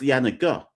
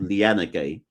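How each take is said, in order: First: The final vowel is said as 'ah'. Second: The final vowel is said as 'ay'. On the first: The speaker calls it right. "I think it's Lianaga" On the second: The speaker calls it wrong. "we look at that phonetically and go Lianagay"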